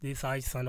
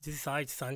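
First: The voice keeps its full low end. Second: The voice has its low end cut. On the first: "No processing, nothing. Just some limiter" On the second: "Put on the switch for 160 hertz"

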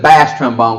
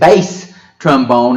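First: The vowel in 'bass' rhymes with 'class'. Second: The vowel in 'bass' rhymes with 'case'. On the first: The speaker calls it wrong. "instead of bass trombone" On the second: The speaker calls it right. "say bass trombone"

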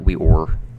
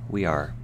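First: The second word sounds like 'or'. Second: The second word sounds like 'ar'. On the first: The speaker calls it wrong. "not we or" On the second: The speaker calls it right.

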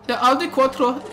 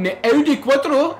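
First: It is said in a put-on German accent. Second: It is said in the speaker's plain accent.

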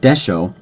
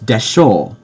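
First: The final o sound is short. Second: The final o sound is drawn out long. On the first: The speaker calls it wrong. "it's not desho" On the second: The speaker calls it right.

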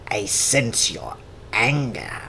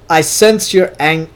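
First: It is said in a Palpatine impression voice. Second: It is said in his normal voice.

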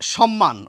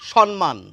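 First: It begins with sh and has double m. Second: An n sound replaces the first m. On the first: The speaker calls it right. "এই সম্মানটি প্রমিত উচ্চারণ" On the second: The speaker calls it wrong. "দন্ত ন উচ্চারণ করছেন"

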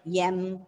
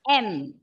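First: The letter name starts with a y sound. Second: The letter name starts directly with the vowel. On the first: The speaker calls it wrong. "pronouncing the letter M as YEM" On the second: The speaker calls it right. "it is M"

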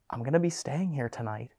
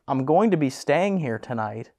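First: It is said at a lower volume. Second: It is said at a louder volume.

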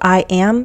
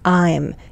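First: The words are said as two full separate syllables. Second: The words are merged into one contracted syllable. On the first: "So I am becomes I'm" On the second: "So I am becomes I'm"

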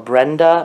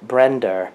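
First: The name ends in a plain 'uh' vowel. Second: The name ends in an 'er' sound. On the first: "like Linda or Brenda" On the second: "my mother says"

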